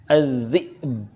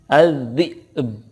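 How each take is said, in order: The two takes are said the same way.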